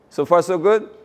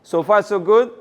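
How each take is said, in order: Both takes have the same delivery.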